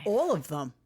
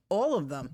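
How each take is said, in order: First: Whispering. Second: Said in the usual way. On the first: Real, not acted. Joins the whispering.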